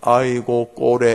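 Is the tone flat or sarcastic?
flat. It is said flatly, without mocking.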